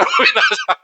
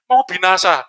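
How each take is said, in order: First: Very high, comic squeal rising at the end; hammed-up high-pitched wail; mock alarm. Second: Said in the usual way. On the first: Preacher mocking disciples who only report doom, mock alarm. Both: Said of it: "ngasih kabar aja".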